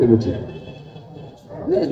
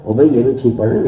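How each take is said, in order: First: "یہ بھی ٹھیک پڑھ رہے ہیں" slowed and whispered; drawn out under the breath; slow soft whisper. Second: Quick delivery. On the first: (دھیمی سرگوشی میں آہستہ) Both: Shown as a demonstration. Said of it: "میں بہت اچھی مثال آپ کو دے رہا ہوں".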